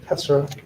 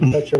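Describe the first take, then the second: First: The middle consonant is an s sound. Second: The middle consonant is a t sound.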